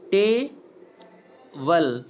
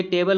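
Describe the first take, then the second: First: "टेबल" as a long "टे", pause, then "बल"; teacher's drawn-out "टे... बल"; split syllables. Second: Said in the usual way. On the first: Shown as a demonstration. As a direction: break "टेबल" in two, very slowly. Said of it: "टे अलग है और वेल अलग है". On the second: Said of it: "तो ये टेबल हो गया".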